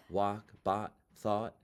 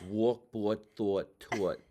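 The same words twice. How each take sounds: First: Mock-proper American accent, no Jersey "aw"; corrected standard American accent. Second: Broad Jersey "aw" in each word; New Jersey accent. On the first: Student mocking the acting teacher's correction, standard American accent. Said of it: "What am I supposed to say?". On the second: Student reading words to acting teacher, New Jersey accent. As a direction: say the word list in thick New Jersey vowels. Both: Shown as a demonstration.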